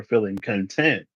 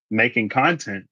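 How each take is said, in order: First: CONTENT stressed on TENT, meaning satisfied; second-syllable stress. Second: CONTENT stressed on CON, the noun; first-syllable stress. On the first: Giving viewers an example of being satisfied, content stressed as con-TENT. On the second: Giving viewers an example about the channel, content stressed as CON-tent. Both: Shown as a demonstration. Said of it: "So the difference between".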